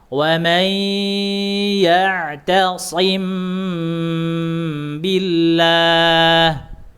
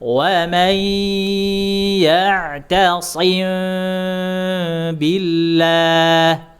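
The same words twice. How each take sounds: First: The hum is made with lips pressed closed. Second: The hum is made with lips slightly open. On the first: "Caranya adalah merapatkan bibir" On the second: "Sedikit saja dibuka bibirnya. Itu cara furjah"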